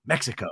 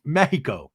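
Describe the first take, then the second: First: Said in the usual way. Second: "Mexico" with a breathy h for the x; Spanish-style Mexico. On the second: Shown as a demonstration. Reading the trailer's chyron, "Mexico" said Spanish-style. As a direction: say "Mexico" as MEH-hee-co.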